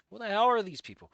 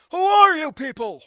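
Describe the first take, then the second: First: Said in the usual way. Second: Higher and louder in a put-on voice, stress on are; hammed-up exasperated yell; mock outraged shout. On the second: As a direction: bellow it like a cartoon meltdown. Meme outburst at unknown characters.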